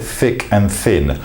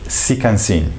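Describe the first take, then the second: First: The words begin with a soft th sound. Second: The words begin with a hissing s sound. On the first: "if I said thick and thin" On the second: "in French pronunciation of English"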